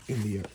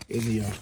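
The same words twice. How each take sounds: The two takes are said the same way.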